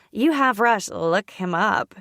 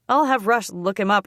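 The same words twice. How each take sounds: First: Slow, exaggerated mocking echo; over-the-top mimicry. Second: Said in the usual way. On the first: A narrator's reading. Sister teasing about looking him up, mocking mimicry. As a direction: parrot it back slowly, laying it on thick. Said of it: "She mimics me in an over-the-top tone of voice".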